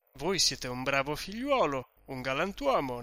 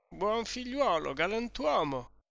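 First: Said in the usual way. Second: Put-on higher, dreamy drunken repeat; tipsy echo. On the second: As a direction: echo the flattery happily. Drunk Renzo echoing host. (eco brillo e compiaciuto, più acuto)

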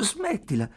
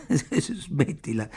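First: High, abrupt interjection; sharp, unexpected objection without laughter; sudden protest. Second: Slow, playful protest through a giggle; amused, half-hearted objection with a titter; giggling. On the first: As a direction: break in suddenly, pitched up. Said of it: "disse lei all'improvviso". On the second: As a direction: let a little laugh spill into it. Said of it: "disse con un risolino". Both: A narrator's reading.

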